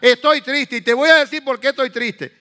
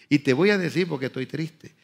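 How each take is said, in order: First: It is said in a forceful, harsh tone. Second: It is said in a soft, gentle tone.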